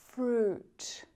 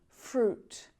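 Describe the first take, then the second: No difference in how they are said.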